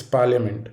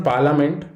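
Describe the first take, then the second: First: "parliament" as PAR-lee-uh-ment; "parliament" with a y glide after the l; right parliament. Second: "parliament" as PAR-luh-ment; "parliament" without the y sound; wrong parliament. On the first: Teacher showing students the right way, "parliament" with the y glide. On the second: Teacher showing students the wrong way, "parliament" without the y. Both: Shown as a demonstration. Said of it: "there should be a Y after L".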